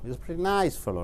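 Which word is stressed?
nice. The stress falls on the word nice. He is an average person. "நைஸுக்கு அழுத்தம் கொடுக்கும்போது"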